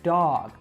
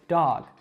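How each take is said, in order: First: A long, drawn-out vowel, New York style. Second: A short ah vowel, standard American style. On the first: "New Yorkers can really exaggerate that sound, really drawing it out" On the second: "in a standard American accent, we would say these words with an ah sound"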